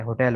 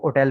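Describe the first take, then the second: First: होटल with a clear breathy h at the start; h sounded. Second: होटल said as oटल, with no h sound at the start; dropped h. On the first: Teacher showing the usual होटल with its h. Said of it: "आमतौर पर उसे हो- एच पढ़ा जाता है". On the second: Teacher showing how some say होटल without h. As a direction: drop the h in होटल and begin on the vowel. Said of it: "बाज़ उसके एच को भी नहीं पढ़ते". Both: Shown as a demonstration.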